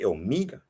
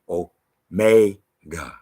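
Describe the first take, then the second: First: The middle vowel sounds like 'ee'. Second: The middle vowel sounds like 'ay'. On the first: The speaker calls it wrong. "You don't say Omega" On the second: The speaker calls it right. "You say Omega. ... The E is A"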